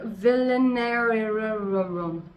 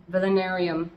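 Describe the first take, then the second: First: "Villenarium" very slow, the ending stretched and rolled along; drawn-out sounding out. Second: Said in the usual way. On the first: Shown as a demonstration. Plant owner stumbling over a name, "Villenarium" slowly drawn out. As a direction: stretch the end of "Villenarium" playfully.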